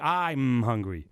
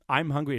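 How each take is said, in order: First: The first vowel is drawn out long. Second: The first vowel is clipped short. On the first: The contraction is broken. The speaker calls it wrong. "You don't say I'm hungry" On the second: It is a normal contraction. The speaker calls it right. "it's always short"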